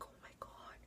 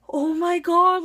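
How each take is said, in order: First: Breathless whisper, no voice at all; whispered shock. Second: A loud, higher, shocked gasp of words; shocked exclamation. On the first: Caught in the wrong room, a horrified whisper. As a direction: hush it like you're caught. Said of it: "I'm just like". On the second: Caught in the wrong classroom, loud shocked cry. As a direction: blurt it out in shock. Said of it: "And then I'm just like". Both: Retold or imitated.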